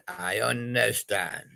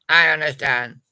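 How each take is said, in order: First: Drawn out softly, a little lower; slow understated take. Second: Said out firmly and louder; louder emphatic take. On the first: Reply to the patient, slow and soft. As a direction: let it sink in slowly. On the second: Second take to the patient, firm and louder. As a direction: insist on it. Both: Shown as a demonstration.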